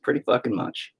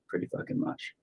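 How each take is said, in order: First: Said in the usual way. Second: Breathy whisper of "Pretty fucking much"; whispered repeat. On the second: Retold or imitated. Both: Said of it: "I'll be like".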